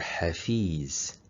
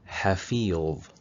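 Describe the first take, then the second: First: The last consonant is a plain z sound. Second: The last consonant is the emphatic letter va sound. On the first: The speaker calls it wrong. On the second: The speaker calls it right.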